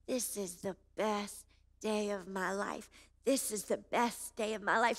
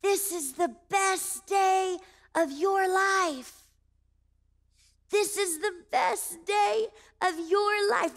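First: Heartfelt inner recital. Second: High, slow, stretched-out call; drawn-out high mock shout; retold shouting. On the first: Retold or imitated. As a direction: say it softly to yourself, savoring it. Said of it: "my heart started to recite those words". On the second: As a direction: imitate strangers calling out word by word. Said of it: "they started to shout at me".

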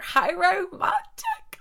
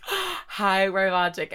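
First: High, slow, dreamy sigh on romantic; mock swoon. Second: Said in the usual way. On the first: Swooning to listeners about a translator romance, mock dreamy. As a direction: swoon over it theatrically.

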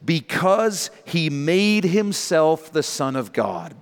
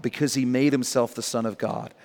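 First: Because he made himself the Son of God drawn out slowly, weight on made; slow emphatic reading. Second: Said in the usual way. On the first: Shown as a demonstration. Preacher stressing the key verse for the congregation, slow and weighty. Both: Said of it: "Underline this".

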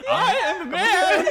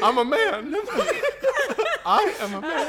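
First: High, slow laughing whimper; cringing submission, hammed up. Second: High laughing whimper; hammed-up pleading whimper. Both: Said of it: "The whimpering voice".

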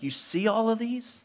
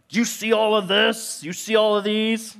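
First: Higher, sombre question; pointed question. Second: Much higher, louder, scolding questions; exasperated parent. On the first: Jesus asking disciples about the temple, sombre. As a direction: point at the doomed stones. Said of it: "that's kind of what he does". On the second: Parent scolding kids about their messy room, exasperated. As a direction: scold the kids over the mess. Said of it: "the way I talk as a parent". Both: Retold or imitated.

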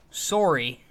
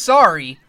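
First: "sorry." with a rounded o as in sore, sore-ee; Canadian sorry. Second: Sorry said the American way, "sorry" with an open ah, like sah-ree; plain American "sorry" with an ah vowel, not the Canadian one. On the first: Friends mocking Canadians, then gives the Canadian "sorry." as sore-ee. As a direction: stretch the o in "sorry." like a Canadian would. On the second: Friends mocking Canadians, first says "sorry" American style, sah-ree. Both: Shown as a demonstration. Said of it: "Not just sorry, sorry".

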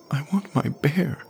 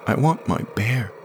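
First: Put-on much higher, strained child's plea; high tearful whine; desperate boy. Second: Put-on higher child's voice, stressing want; a kid begging for his toy; lightly voiced whining boy; pleading boy. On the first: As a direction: beg harder as he rushes at her. Jamie pleads again, stronger. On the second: Jamie pleads. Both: A narrator's reading.

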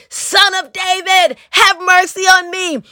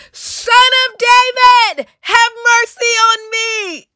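First: Raised-pitch plea, not loud; restrained shout. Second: Very high, slow, sustained cry; shouting louder. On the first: Preacher rereading the blind beggar's plea to Jesus, mildly shouted. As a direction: call it out higher without full volume. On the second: Blind beggar refusing to be hushed, shouting louder to Jesus. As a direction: build into a high, drawn-out shouted plea. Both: A narrator's reading. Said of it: "he only shouted louder".

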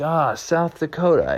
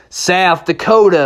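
First: Puzzled official. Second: Slow, higher southwestern drawl. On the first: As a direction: take it in like a polite clerk. Officials repeat horse's answer. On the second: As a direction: stretch it like a southwestern cowboy. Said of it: "talking with a nice southwestern drawl". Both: Acted.

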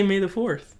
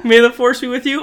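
First: "fourth" said with a lisp, high. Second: Said in the usual way. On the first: Shown as a demonstration. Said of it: "or are you trying to say". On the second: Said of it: "are you trying to say".

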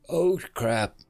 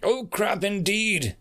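First: Deflated, dropping after the yell; sudden dismay. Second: High, slow, ringing pronouncement; ominous echo. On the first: Dead soldier recognises the cloaked figure, dismayed. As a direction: let the bravado fall away. Sees who he shouted at. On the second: Cloaked reaper echoes the dead soldier, ominous. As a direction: throw the words back grandly, slowly. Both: Acted.

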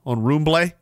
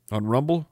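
First: "Roomblay" said ROOM-blay, faux-French ending; mock mispronunciation. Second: Said in the usual way. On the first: Host jokily renaming the site, "Roomblay" mispronounced with an -ay ending. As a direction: turn Rumble into a fancy "Roomblay". On Rumble.

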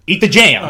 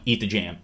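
First: Loud, higher, insistent order; urgent insistence. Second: Said in the usual way. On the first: Retold or imitated. Imitating him telling her to eat the jam, urgent insistence. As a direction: press her hard, voice jumping up. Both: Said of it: "telling her, like".

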